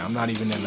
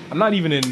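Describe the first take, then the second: First: Said in the usual way. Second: NOT hit high and loud; "not" punched, louder and higher; stress on NOT. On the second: Real, not acted.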